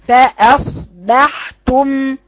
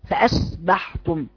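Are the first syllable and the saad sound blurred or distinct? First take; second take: distinct; blurred. First: The hamza and saad are split into linked halves. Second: The hamza and saad run together without clear separation. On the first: The speaker calls it right. "كأنك تفصليها إلى نصفين بدون سكت على النصف الأول، بتوصلي النصفين" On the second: The speaker calls it wrong. "أنت بتقرأيها كالتالي، بتقولي فأصبحتم"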